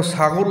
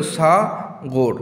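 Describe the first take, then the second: First: Said in the usual way. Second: "Sagar" very slowly as সা, pause, গর; teacher sounding out সা–গর; split into syllables. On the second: Shown as a demonstration. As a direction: stretch the সা of "Sagar", then a separate গর. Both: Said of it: "উচ্চারণ শুনলেই বোঝা যায়".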